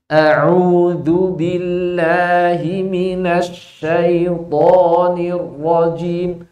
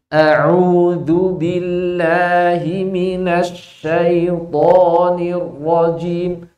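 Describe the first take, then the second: First: Each Arabic consonant is articulated at its exact place. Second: The same.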